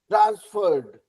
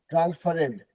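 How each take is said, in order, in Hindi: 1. अंत बस d की आवाज़ है। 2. अंत को एक अतिरिक्त अक्षर की तरह बोला जाता है। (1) "सिर्फ ड लग गया अलग से" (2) "ऐसा नहीं होता है"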